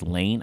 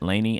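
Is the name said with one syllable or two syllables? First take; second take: one syllable; two syllables. First: The name is said with one syllable. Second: The name is said with two syllables. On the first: The speaker calls it right. "It is Layne" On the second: The speaker calls it wrong. "I mispronounced her name. I said Laney"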